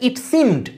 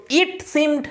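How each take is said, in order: First: It SEEMED, with seemed carrying the weight; stress on SEEMED. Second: IT seemed, with it punched high; stress on IT. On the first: Teacher showing students the natural reading, seemed stressed after it. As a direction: keep it light and land on seemed. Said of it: "এটা সিমেতেই জোরটা পড়ছে". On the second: Teacher showing students the unlikely reading, IT stressed before seemed. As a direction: put the weight on it, not on seemed. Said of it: "এরকম বলবে নাকি". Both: Shown as a demonstration.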